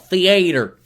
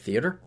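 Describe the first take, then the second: First: The word is drawn out in a Southern accent. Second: The word is said in a plain, neutral accent. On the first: "he's got the southern drawl" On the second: "us normal people just call it theater"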